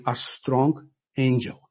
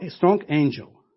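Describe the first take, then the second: First: "a strong angel" dito devagar, cada palavra pesada; slow down and lean on "strong angel"; stress on strong angel. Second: Said in the usual way. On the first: Shown as a demonstration. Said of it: "emphasized the word, the word here". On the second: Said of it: "John again emphasized the word".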